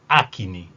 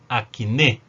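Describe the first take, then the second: First: The stress is on the first syllable. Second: The stress is on the last syllable. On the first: This is the Portuguese pronunciation. "En portugués" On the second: This is the Spanish pronunciation. "la tilde está en la, la E y por lo tanto esta es la tónica"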